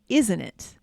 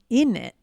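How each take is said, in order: First: The phrase is fully pronounced, with its t sounds. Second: The phrase is reduced, with the t sounds dropped.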